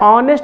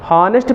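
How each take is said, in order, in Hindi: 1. शब्द की शुरुआत स्वर से होती है, इसमें h नहीं है। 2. शब्द की शुरुआत h ध्वनि से होती है। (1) "जो पढ़ने का तरीका है ऑनेस्ट होता है" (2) "हॉनेस्ट को आप लोग हॉनेस्ट पढ़ते हो ना"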